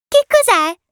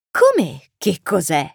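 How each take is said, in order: First: Put-on high, loud child's question; curious little prince. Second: Slow echo in a grown man's own register; taken-aback pilot. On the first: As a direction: ask it in a piping child's voice. Little prince asks about the plane. (vocina acuta e curiosa) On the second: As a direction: repeat the question slowly, as if baffled. Pilot echoes the prince's question. (domanda ripetuta lentamente, con stupore) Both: A narrator's reading.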